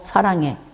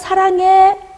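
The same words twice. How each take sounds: First: It is said in a grudging, reluctant tone. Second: It is said in a warm, affectionate tone. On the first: The parent is displeased with a disobedient child. "아침에 이놈이 부모님 말씀에 불순종했어. 근데 어 사랑해. 이건 다른 거예요" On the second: The parent sincerely expresses love. "부모님도 자녀들에게 말씀하실 때 억양이 있죠"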